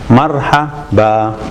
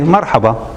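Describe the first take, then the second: First: The word is said slowly and carefully. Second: The word is said quickly and smoothly. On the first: "You just follow it" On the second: "when you say it quickly"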